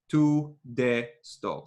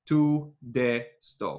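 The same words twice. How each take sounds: First: The vowels in 'to the' are full and unreduced. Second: The vowels in 'to the' are full and unreduced.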